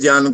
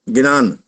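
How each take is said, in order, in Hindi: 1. शब्द की शुरुआत gy संयुक्त ध्वनि से होती है। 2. शब्द की शुरुआत में अलग से gi अक्षर है। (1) "ज्ञान को गिनान" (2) "कई कई जगह गिनान बोलते हैं"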